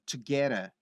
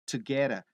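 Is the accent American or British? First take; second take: American; American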